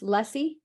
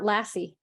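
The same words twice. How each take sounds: First: The first vowel is like in 'lust'. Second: The first vowel is like in 'lass'. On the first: The speaker calls it right. "It's lassi" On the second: The speaker calls it wrong. "I've been saying that wrong"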